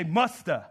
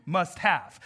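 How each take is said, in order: First: "musta" run together as MUS-tuh; Southern contraction. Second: "Must have" spelled out in full; two separate words. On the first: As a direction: say "musta" as one Southern word. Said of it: "some people in the South". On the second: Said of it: "You're putting two things together". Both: Shown as a demonstration.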